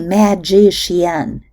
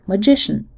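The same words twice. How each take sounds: First: The unstressed vowels keep their full quality. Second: The last vowel vanishes and the n is syllabic. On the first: "We don't say" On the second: "can even disappear altogether, making the nasal n syllabic"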